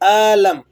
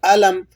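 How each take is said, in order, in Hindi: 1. पहला स्वर खींचकर लंबा बोला गया है। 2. पहला स्वर छोटा है। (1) "आलम ऐसे नहीं करेंगे" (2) "इसको आपने खींचना नहीं है"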